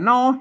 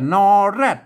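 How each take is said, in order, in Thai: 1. พยางค์ที่สองขึ้นต้นด้วยเสียง h 2. พยางค์ที่สองขึ้นต้นด้วยเสียง r (1) "อันเมืองกับนอแฮดนะ" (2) "ออกเสียงถ้าไทยกับนอแรด"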